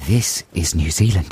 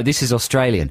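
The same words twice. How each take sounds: First: Lower, put-on New Zealand accent; New Zealand accent demo. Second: Put-on Australian accent; Australian accent demo. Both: Shown as a demonstration.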